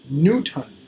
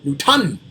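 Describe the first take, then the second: First: The stress falls on the usual syllable. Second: The stress falls on a different syllable. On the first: The speaker calls it right. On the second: The speaker calls it wrong.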